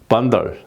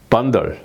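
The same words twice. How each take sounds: No difference in how they are said.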